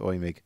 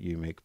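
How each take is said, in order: First: The name begins with an 'oy' sound. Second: The name begins with a 'you' sound. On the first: This is how German speakers say the name. The speaker calls it right. "The German pronunciation is Oymig" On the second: This is the speaker's habitual reading of the spelling. The speaker calls it wrong. "I call it UMIG"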